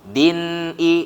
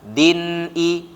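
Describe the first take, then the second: The two takes are said the same way.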